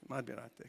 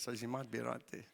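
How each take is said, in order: First: Very soft repeated concession; echoing his own aside, softer. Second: Much softer, half to himself; muttered concession; quiet self-deprecating admission; rueful aside. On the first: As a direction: drop it to near nothing. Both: Real, not acted.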